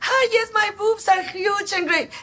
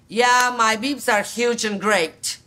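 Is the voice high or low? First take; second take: high; low. First: It is said in a high, light voice. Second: It is said in a low, grounded voice.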